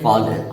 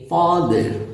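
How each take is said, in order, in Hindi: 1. सुर दोनों अक्षरों में एक जैसा रहता है। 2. पहले अक्षर पर सुर ऊँचा होता है, फिर नीचे आता है। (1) "हमारी आदत बना दी जाती है फॉलर की" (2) "पहले ऊपर जाएंगे फा, फिर नीचे आएंगे द"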